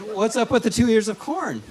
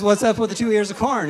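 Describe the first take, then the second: First: Higher puzzled asking; puzzled question. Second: Loud, high baffled question; louder puzzled. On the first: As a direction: ask it baffled, pitched up. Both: Shown as a demonstration. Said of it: "it's good".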